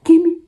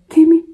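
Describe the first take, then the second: First: High, loud worried "Kimmy"; dad answering the phone already alarmed; dad's alarmed answer. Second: High, loud alarmed "Kimmy"; dad picking up already worried; a father sensing trouble on the phone; dad's alarmed answer. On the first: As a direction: call her name like a startled father. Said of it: "my dad calls me Kimmy". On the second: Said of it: "even the way he answered, it was like". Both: Retold or imitated.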